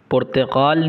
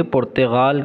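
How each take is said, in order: First: पुर्तगाल with a hard, throaty q in the middle; hard q sound. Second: पुर्तगाल with a soft throaty gh in the middle, Iranian style; soft gh sound. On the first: Teacher shows students the wrong q in पुर्तगाल. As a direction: say पुर्तगाल with a clipped q, as the wrong version. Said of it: "पुर्तगाल नहीं कहेंगे". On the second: Teacher shows students the Iranian gh in पुर्तगाल. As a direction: say पुर्तगाल with a gliding gh, the right way. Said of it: "पुर्तगाल कहेंगे". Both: Shown as a demonstration.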